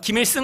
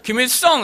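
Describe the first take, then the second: First: The last syllable is pronounced 'seung'. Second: The last syllable is pronounced 'seong'. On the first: "김일승 한번 해보세요" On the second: "김일성 이렇게 하면 이제 이분은 바로 이제 목이 잘리는 거죠"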